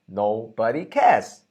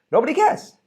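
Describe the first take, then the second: First: Said in the usual way. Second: "Nobody cares" thrown up high and louder; emphatic nobody cares. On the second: Shown as a demonstration. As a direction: hit "Nobody cares" with a high rising punch.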